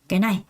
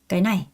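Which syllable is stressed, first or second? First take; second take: second; second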